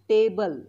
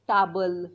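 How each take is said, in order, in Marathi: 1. पहिला स्वर 'ay' सारखा वाटतो. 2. पहिला स्वर 'ah' सारखा वाटतो.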